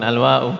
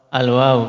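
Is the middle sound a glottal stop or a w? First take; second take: glottal stop; w. First: The middle consonant is a glottal stop. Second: The middle consonant is a w sound. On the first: The speaker calls it wrong. "bukan al-wa'u" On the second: The speaker calls it right. "Al-wawu, bukan al-wa'u"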